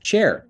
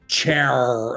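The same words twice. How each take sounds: First: The final R is light and controlled. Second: The final R is heavy and strongly retroflex.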